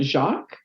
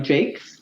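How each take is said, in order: First: The name is said like French 'Jacques'. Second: The name is said like 'Jakes'. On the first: This is how the spelling suggests it is said. The speaker calls it wrong. "you would probably be inclined to um, pronounce it Jacques" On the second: This is how the person herself says it. The speaker calls it right. "so she goes by Jakes"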